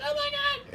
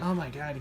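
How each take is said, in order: First: Imitating an excited squeal, extremely high; mock-squeak it softly, way up high; helium voice. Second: Quiet, understated mock complaint; imitated pained reaction. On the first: Husband imitating his excited wife, helium voice. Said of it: "she's speaking like she just did a bunch of helium". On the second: Imitating Charlie whose ears hurt, pained reaction. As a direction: say it softly, in an ordinary low register. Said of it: "because Charlie's ears hurt".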